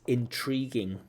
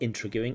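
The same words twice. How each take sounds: First: It is pronounced the standard way. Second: It is pronounced the way it is spelled. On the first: The speaker calls it right. "It's intriguing" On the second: The speaker calls it wrong. "by the way that it's written, it looks like intriguing, but it's not intriguing"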